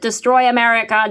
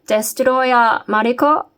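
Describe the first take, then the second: First: It is said in a broad Australian accent. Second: It is said with a Japanese-sounding accent. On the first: "that was a kind of a bit more of a bogan" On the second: "Japanese sounding?"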